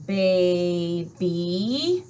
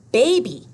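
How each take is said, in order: First: Put-on "Baby" split slowly, long E rising; syllable by syllable. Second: Said in the usual way. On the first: Shown as a demonstration. Teacher showing the long E sound, "Baby" drawn out. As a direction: stretch "Baby" into bay-bee, lifting the end. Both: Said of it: "Do you hear the long E sound?".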